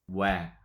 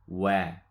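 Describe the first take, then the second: Both takes have the same delivery.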